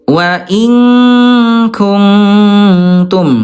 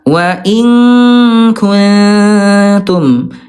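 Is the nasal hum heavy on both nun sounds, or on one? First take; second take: both; one. First: Both nun sounds carry a long, heavy nasal hum. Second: Only one nun sound carries a heavy nasal hum. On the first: The speaker calls it wrong. "yang ke satu dia Ayah Bunda dua-duanya lebih banyak dengungnya" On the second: The speaker calls it right. "yang betul adalah yang ketiga"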